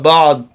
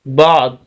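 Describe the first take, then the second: The two takes are said the same way.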